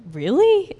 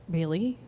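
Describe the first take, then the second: First: High, loud disbelieving question; incredulous. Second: Understated doubt with a rising end; doubtful. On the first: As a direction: blurt it as a comic double take. Repeats the doubt, far more incredulous. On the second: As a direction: ask it softly, unsure you heard right. Doubting reply to inner word. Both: Retold or imitated.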